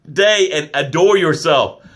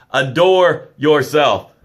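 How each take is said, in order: First: Said in the usual way. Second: "Adore yourself" drawn out very slowly; slow, deliberate "Adore yourself" as a parting order; slow emphatic farewell. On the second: Shown as a demonstration. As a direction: lean into "Adore", stretching each word.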